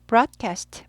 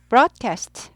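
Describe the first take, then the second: The two takes are said the same way.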